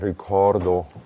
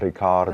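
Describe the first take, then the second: First: The O vowel is dark, pulled down. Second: The O vowel is open and bright. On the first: The speaker calls it wrong. "not ricordo with these muscles pulling down" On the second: The speaker calls it right. "but Riccardo"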